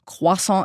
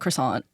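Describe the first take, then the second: First: It is said with a French accent. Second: It is said with an English accent. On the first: The speaker calls it wrong. "insist on saying croissant" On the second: The speaker calls it right. "please call it a croissant"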